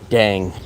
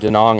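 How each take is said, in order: First: The name is condensed into one syllable. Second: The name is said in full, two syllables.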